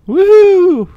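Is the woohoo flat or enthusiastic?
enthusiastic. It is said with more enthusiasm.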